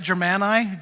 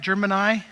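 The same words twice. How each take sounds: First: Testing "Germani" as zher-MAN-eye, unsure; trying the pronunciation. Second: "Germani" retried with a hard j start, jer-muh-nye; "Germani" with a hard J and a lighter middle vowel; second quick attempt at "Germani", hard j; second try at the pronunciation. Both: Shown as a demonstration. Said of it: "Am I saying it right?".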